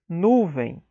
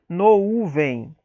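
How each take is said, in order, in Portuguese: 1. A primeira vogal é um 'u' simples. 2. A primeira vogal é um ditongo 'ou'. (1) "mas nuvem" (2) "não pronunciaríamos nuvem"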